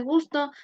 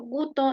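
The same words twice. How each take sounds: First: Said in the usual way. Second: "guto" said with no S sound, like goo-toh; "guto" with the S of "gusto" dropped entirely; "guto", skipping the S, Dominican style. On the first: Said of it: "en vez de gusto". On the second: Shown as a demonstration. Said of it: "eliminación muy frecuente de la S".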